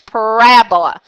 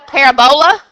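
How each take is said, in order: First: The stress falls on the second syllable, rab. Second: The stress falls on a syllable other than the second. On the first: "the emphasis is at the word rab" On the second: "it does sound like parabola"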